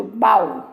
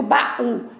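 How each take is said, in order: First: "baú" run together as one syllable, BAU; "baú" said like bau, u unstressed; one mouth opening. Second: "baú" as two syllables, ba-Ú; "baú" with a clear break between a and u; split in two. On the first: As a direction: glide "baú" into a single beat, stress on the a. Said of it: "Abre a boca uma vez só". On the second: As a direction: separate the ú of "baú" into its own beat. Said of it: "Eu não digo baú". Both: Shown as a demonstration.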